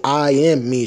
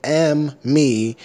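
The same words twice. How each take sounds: First: Higher, louder "I am me" with the "I" clear; "I" and "am" both fully spoken; full "I am". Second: Slow "Am me" with no pronoun; bare, drawn-out "Am" starting the phrase; dropped "I". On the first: Shown as a demonstration. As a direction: correct it with an emphatic "I am". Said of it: "Bitch didn't say". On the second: Retold or imitated. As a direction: quote the mistake "Am me" word by word. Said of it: "She said".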